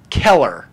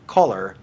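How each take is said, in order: First: It is said in a Pittsburgh accent, like 'Keller'. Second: It is said in a standard American accent. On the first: "they say Keller" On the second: "people don't say color"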